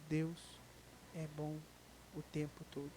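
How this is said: It is said with deep, heartfelt conviction.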